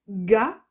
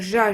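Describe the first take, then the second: First: It starts with a hard 'g' sound. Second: It starts with a soft 'zh' sound. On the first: The speaker calls it right. "Ça va faire ga" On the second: The speaker calls it wrong. "Ça va pas faire ja"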